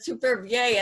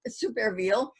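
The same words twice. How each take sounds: First: The name is pronounced in a standard French way. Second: The name is pronounced in a non-French way. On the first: This is the common pronunciation. The speaker calls it wrong. "many people pronounce that Supervielle, and that's how it looks in French" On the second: This is how the poet himself said it. The speaker calls it right. "But in fact, he pronounced it Supervielle"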